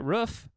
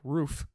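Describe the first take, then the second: First: Roof is said with a Midwestern vowel. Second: Roof is said with a non-Midwestern vowel. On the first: "I gotta start pronouncing it roof" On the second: "instead of roof"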